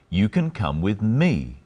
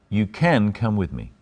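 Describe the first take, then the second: First: The stress is on "me". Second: The stress is on "can".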